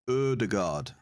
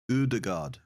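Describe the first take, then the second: Both takes have the same delivery.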